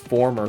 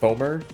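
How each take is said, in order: First: The first syllable has an added R sound. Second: The first syllable has no R sound. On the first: The speaker calls it wrong. "I thought it was former for the longest time until I realized there wasn't an extra R" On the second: The speaker calls it right. "I think it's like, it's like foamer, I think is the word"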